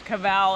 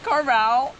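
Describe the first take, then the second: First: The name is said without an R sound. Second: The name is said with an R sound. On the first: The speaker calls it right. "okay, oh yeah, Cavell" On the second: The speaker calls it wrong. "right away you say it wrong again"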